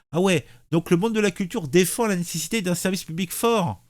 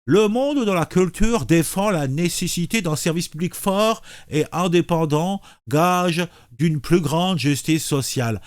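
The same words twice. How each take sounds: First: Said in the usual way. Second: Lips pursed. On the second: Shown as a demonstration. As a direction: read through a tightly pinched mouth. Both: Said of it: "la bouche en cul de poule".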